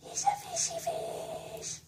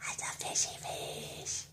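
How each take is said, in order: First: Very high, tiny cooing voice. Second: Soft whisper, stress on fishy. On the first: Owner coos to the pet fish in squeaky baby talk. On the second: Owner whispers fondly to the pet fish. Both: Real, not acted.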